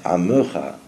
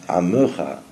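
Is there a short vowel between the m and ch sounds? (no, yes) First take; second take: yes; yes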